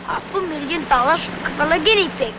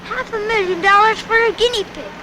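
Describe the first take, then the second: First: Imitated German accent. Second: Said in the usual way. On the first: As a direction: quote it in a put-on German accent. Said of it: "with his German accent". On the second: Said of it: "What did he say".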